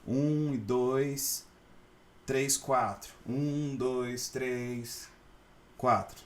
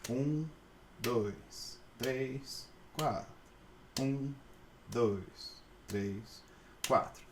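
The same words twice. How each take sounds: First: The count changes speed and is not continuous. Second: The count keeps one continuous, even speed. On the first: The speaker calls it wrong. "Vocês não vão poder fazer tipo" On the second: The speaker calls it right. "tem que ser"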